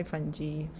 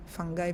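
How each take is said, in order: First: Tentative, soft fungi with soft g and final "ee"; fungi as fun-jee. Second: Tentative, soft fungi with hard g and final "eye"; fungi as fun-guy. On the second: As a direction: try out fungi softly as "FUNG-guy". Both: Shown as a demonstration. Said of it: "American, how they pronounce?".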